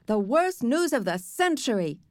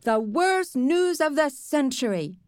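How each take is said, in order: First: Mimicking a dismayed girl; little boy parroting her outcry, lightly; Sheila. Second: Slow, high mocking mimicry; Sheila. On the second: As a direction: exaggerate the girl's outcry, drawn out. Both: A narrator's reading. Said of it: "doing a perfect imitation of Sheila".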